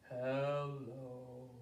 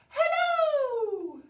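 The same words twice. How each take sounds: First: It is said in a low voice. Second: It is said in a high voice.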